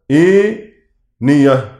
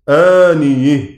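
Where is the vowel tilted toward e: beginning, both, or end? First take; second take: beginning; end. First: The first vowel is tilted toward e; ending stays open. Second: The first vowel stays open; ending is tilted toward e. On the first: "يميل منها هشام فتحة الهمزة والألف بعدها خالصة، ويفتح الياء والهاء" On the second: "فيميل فتحة الياء والهاء في الوقف ويفتح الهمزة والألف"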